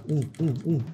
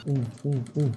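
No difference in how they are said.

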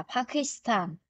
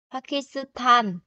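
First: Pakistan said the Korean way, softly; Korean pronunciation. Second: Pakistan read slowly, syllable by syllable, as written; Pakistan as spelled. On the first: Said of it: "phát âm sẽ là Pakistan". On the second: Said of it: "nhưng phát âm sẽ là Pakistan". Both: Shown as a demonstration.

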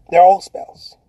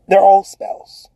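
First: Said in the usual way. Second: Slow and weighty, every word spaced; slow emphatic. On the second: Shown as a demonstration. Coach to viewers, slow and weighty. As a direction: lay it down slowly like a verdict.

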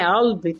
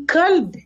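First: "Qalb" begun deep in the throat, q nearly a glottal catch; "Qalb" with a throat-made first sound; throaty Arabic q. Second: "kalb" with a plain, clear k at the front; "kalb" starting on a crisp k, no throat sound; clear Arabic k. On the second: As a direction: hit a clean k on "kalb". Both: Shown as a demonstration. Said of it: "tem que falar assim com entonação aqui na garganta".

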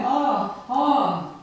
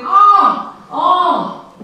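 First: Understated retold cry, twice; a mild mock scream read in passing; light echo of "Ah!"; echoed scream, half-hearted. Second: Two high, loud cries; loud "Ah!" ringing twice; echoed scream. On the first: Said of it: "the echo of his scream". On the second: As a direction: scream it out, then let the repeat drop slightly. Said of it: "of his scream". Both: A narrator's reading.

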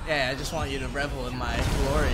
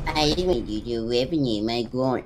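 First: Self-satisfied gloating; smug boast. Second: Mocking imitation. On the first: Acted. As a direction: lean into the bragging. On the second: Mocking friend's words back.

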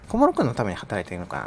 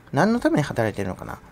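First: 小室君 stressed, with the rest of the line lower and falling; stress on Komuro. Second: Said in the usual way. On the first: Shown as a demonstration. Vlogger jabs at Komuro's tax money, 小室君 stressed. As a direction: lean on 小室君 as the sarcastic punchline.

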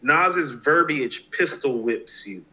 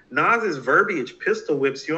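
First: Slow, deliberate reading of the review; slow quoted line. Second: Put-on young fan repeating the review, mildly puzzled. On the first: Retold or imitated. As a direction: quote it very slowly, every word weighed. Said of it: "I remember Chris X saying this". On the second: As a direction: repeat the line back a bit slowly, baffled. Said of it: "And I'm like".

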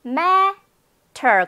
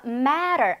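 First: Matter as high MA, pause, then "ter" with clear T; separated syllables. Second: Matter joined up, long MA and r-like tap; rolled T. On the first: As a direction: split "matter" and release the T. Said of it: "앞부분의 강세". (matter를 '매, 터'로 끊어서) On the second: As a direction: stress the front of "matter" and roll through the T. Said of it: "마구마구 굴려". (matter의 앞은 강하게, T는 굴려서) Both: Shown as a demonstration.

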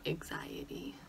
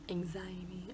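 First: "Anxiety" with the first syllable as "ig-zai"; odd pronunciation. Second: "Anxiety" with a clear "ang" opening; attempted correct pronunciation. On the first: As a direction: say "Anxiety" weird, like "ig-ZAI-ety". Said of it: "I say that weird". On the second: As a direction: sound out "Anxiety" as "ang-ZAI-ety". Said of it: "how to say it the right way". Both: Shown as a demonstration.

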